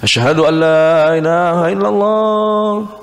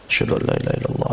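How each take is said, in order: First: The phrase is said in a loud voice. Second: The phrase is said in a quiet voice. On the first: "baru keras" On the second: "dengan suara yang pelan"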